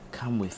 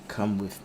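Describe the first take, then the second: First: The voice is softer and lighter. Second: The voice is pitched very deep. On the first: The speaker calls it right. "I gotta do a softer voice" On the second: The speaker calls it wrong. "so too deep a voice"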